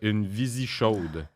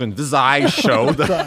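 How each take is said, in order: First: The name ends with an 'ee' sound. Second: The name ends with an 'eye' sound. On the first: The speaker calls it wrong. "On dit-tu visie ou visaille?" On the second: The speaker calls it right. "on dit visaille"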